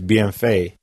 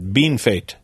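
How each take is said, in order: First: The name is pronounced the French way. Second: The name is pronounced the English way. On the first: This is how the sign reads. "to look at the sign is" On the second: This is how locals actually say it. "but it's"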